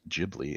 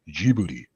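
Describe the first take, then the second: First: The name is said with an English pronunciation. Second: The name is said with a Japanese pronunciation. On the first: "in English they pronounce it" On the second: "in Japanese they pronounce it"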